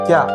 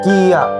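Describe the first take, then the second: First: It is said as one single syllable. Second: It is said as two separate syllables. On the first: "isa lang ang pantig" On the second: "dalawang syllables or dalawang pantig"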